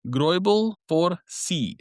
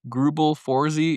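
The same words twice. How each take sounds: First: The name is said the German way. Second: The name is said the American way.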